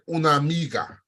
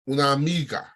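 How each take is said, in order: No difference in how they are said.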